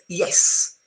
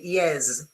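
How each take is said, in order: First: The final consonant is a clear hissed S. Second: The final consonant is buzzed like a Z. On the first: The speaker calls it right. "with a nice um, pronounced S" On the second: The speaker calls it wrong. "which sounds very odd"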